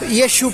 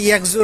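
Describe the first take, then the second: First: The name is said with an 'sh' sound. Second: The name is said with a 'k' sound. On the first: The speaker calls it right. "ইয়েশু park." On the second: The speaker calls it wrong. "উচ্চারণটা ইয়েকজু না"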